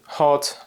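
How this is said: It is said with a British O vowel. "Where the Brits say"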